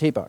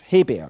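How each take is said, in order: First: The second vowel is an 'a' sound. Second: The second vowel is an 'e' sound. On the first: The speaker calls it wrong. "nicht Hebar" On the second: The speaker calls it right. "Heber, nicht Hebar. Heber heisst der Mann"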